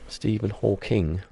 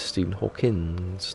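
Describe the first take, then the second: First: The surname ends with an ng sound. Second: The surname ends with an s sound. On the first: The speaker calls it right. "Stephen Hawking, not Hawkins" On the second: The speaker calls it wrong. "everyone says Stephen Hawkins"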